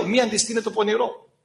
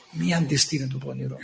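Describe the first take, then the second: First: Said in the usual way. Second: Solemn low. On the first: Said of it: "Ενώ τι λέει εδώ". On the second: Acted. Preacher repeating the scripture to his flock, low and solemn. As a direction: lower and softer, "Μη" held gravely.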